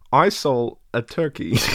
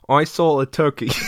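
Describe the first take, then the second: First: The voice puts on a British accent. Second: The voice sounds flat and robotic. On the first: "Michael Caine" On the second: "I sound like Microsoft"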